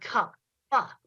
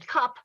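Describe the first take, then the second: First: The final consonant is exaggerated with an added vowel. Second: The word ends plainly on a quick consonant.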